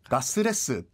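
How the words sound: It is said with a Japanese-style pronunciation, gasuresu. The speaker calls it wrong. "커틀렛 발음이 안 되는 거야, 이 친구들이요"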